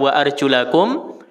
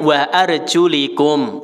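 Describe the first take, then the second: First: The vowel after the l is not i. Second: The vowel after the l is i. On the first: The feet are to be washed. "bisa dibaca wa arjulakum" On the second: The feet may be wiped over. "lamnya di kasroh"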